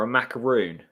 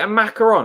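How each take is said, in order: First: "macaroon" ending in a long oo; "macaroon" with -roon, not -ron; pronunciation of macaroon. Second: "macaron" ending in a short nasal -ron; "macaron" with -ron, not -roon; pronunciation of macaron. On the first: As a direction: say "macaroon" to rhyme with "moon". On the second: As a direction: say "macaron" French-style, rhyming roughly with "on". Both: Shown as a demonstration. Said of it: "is it a macaron or a macaroon".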